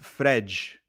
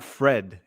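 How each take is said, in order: First: The name ends in a soft 'zh'-like sound. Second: The name ends in a hard 'd' sound. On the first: The speaker calls it right. "Fred in Portuguese is Frej" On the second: The speaker calls it wrong. "not Fred"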